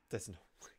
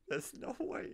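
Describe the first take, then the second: First: Said in the usual way. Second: Breathy high laughing words; laughing disbelief. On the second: Real, not acted. Gamer laughing in disbelief at the hidden sentry, breathy laugh.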